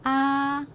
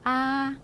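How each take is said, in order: Both takes have the same delivery.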